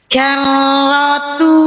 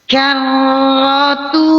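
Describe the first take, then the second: No difference in how they are said.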